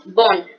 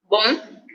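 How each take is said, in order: First: "bon" said as bonne, with an open vowel and a clear n; "bon" with no nasal vowel and the n sounded; feminine bonne. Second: "bon" with a nasal vowel, no n sounded; "bon" said through the nose, French masculine. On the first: Teacher shows the feminine form, plain vowel and n. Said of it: "el femenino es más normalito". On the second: Teacher shows the masculine form, nasal vowel. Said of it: "el masculino es como más nasal". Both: Shown as a demonstration.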